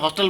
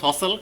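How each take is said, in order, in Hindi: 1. यह hostel जैसा सुनाई देता है, t की आवाज़ के साथ। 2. यह hustle जैसा सुनाई देता है, t की आवाज़ के बिना। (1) "जिसको मैं हॉस्टल बोलता था" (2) "एक्चुअली उसका प्रोनाउंस"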